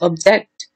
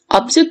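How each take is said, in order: First: The stress is on the second syllable. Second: The stress is on the first syllable. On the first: It is a verb. "This object is actually stressed, so this is verb" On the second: It is a noun. "that is noun"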